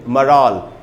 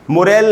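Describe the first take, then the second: First: The word sounds like 'maral'. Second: The word sounds like 'morel'. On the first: The speaker calls it right. "इस word का उच्चारण हो जाएगा मराल" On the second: The speaker calls it wrong. "मोरेल नहीं बोलेंगे"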